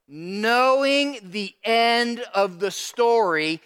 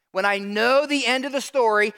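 First: Each word drawn out, KNOWING leaned on hard; slow it right down and stress knowing; slow emphasis. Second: Said in the usual way. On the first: Shown as a demonstration. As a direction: spell it out deliberately, word by word.

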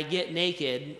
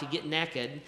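First: Said in the usual way. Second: Southern naked. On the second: Shown as a demonstration. Pastor joking to the church, in a Southern accent. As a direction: say "naked" like "nekkid", Southern style. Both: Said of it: "or if you're from the South".

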